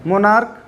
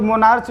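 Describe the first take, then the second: First: "मोनार्क" ending in a hard k; correct pronunciation. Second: "मोनार्च" ending in a ch sound; wrong pronunciation. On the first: Teacher modelling the word for students, "मोनार्क" with final k. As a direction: say "मोनार्क" as "mo-naark". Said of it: "उसको पढ़ते हम लोग क्या है". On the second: Teacher quoting how some people misread it, "मोनार्च" with final ch. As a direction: say "मोनार्च" as "mo-naarch". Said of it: "मोनार्च गलत pronunciation होता है". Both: Shown as a demonstration.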